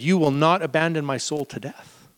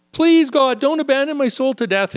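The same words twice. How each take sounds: First: Said in the usual way. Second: Much higher, louder pleading cry; half-acted desperate psalm plea. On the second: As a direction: beg God as if drowning.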